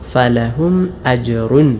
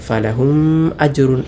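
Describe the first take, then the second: First: The m is pronounced fully and clearly. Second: The m is swallowed and unclear. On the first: The speaker calls it right. "വെളിവാക്കി ഇൽഹാർ ചെയ്തുകൊണ്ടാണ് ഓതേണ്ടത്" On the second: The speaker calls it wrong. "മടിച്ചുകൊണ്ട് ഓതാറുണ്ട്"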